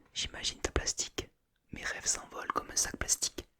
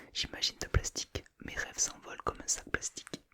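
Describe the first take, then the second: No difference in how they are said.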